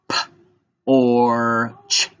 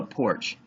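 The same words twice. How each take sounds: First: P, or, ch apart, with a loud held or; tapped-out sounds. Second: Said in the usual way. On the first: Shown as a demonstration. Teacher tapping porch's three sounds, segmented. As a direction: break porch into P... or... ch. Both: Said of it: "gonna tap out porch".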